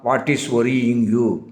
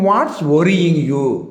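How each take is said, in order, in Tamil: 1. 'What' மற்றும் 'is' தனித்தனி வார்த்தைகளாகச் சொல்லப்படுகின்றன. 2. 'What' மற்றும் 'is' ஒரே அசையாக இணைந்து சொல்லப்படுகின்றன. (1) "நம்ம சாதாரணமாக எப்படி கேட்போம்னா" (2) "இந்த வாட்டையும் இசையும் ஒன்று சேர்த்து"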